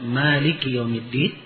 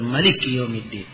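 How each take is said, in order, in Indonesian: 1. Vokal setelah m dibaca panjang. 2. Vokal setelah m dibaca pendek.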